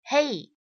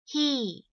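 First: The vowel is a gliding 'ay' sound. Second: The vowel is a long tense 'ee' sound. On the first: The speaker calls it wrong. "很多同学呢都会把这样的一个词读成是hey" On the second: The speaker calls it right. "应该是包含一个长元音e"

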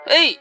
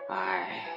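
First: The exclamation sounds excited and pleased. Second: The exclamation sounds let down and disappointed. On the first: The searchers think they have found their missing friend. The speaker calls it wrong. "不是像爸爸这种说很兴奋的语气" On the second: The searchers realize it is only a buoy. The speaker calls it right. "他是很失望的语气"

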